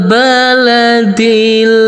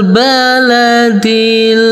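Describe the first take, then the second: No difference in how they are said.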